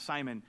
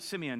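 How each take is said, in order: First: SIMON said as SIGH-mun; usual name form. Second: SIMEON said as SIM-ee-un; accented name form. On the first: Shown as a demonstration. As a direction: say Simon in two syllables, long i. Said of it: "why is it Simeon, not Simon". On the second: Acted. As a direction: say Simeon with a short first vowel, SIM. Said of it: "'Cause James has an accent".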